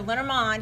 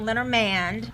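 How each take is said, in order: First: It is said with a French accent. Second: It is said with a Texan American accent. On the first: The speaker calls it right. "it's a French word, and that's how you pronounce it" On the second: The speaker calls it wrong. "not Lenormand because it's not East Texan"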